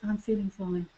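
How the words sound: It is said in a relaxed, smiling tone.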